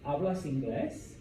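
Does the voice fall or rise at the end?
rise. The voice rises at the end. It asks whether he speaks English.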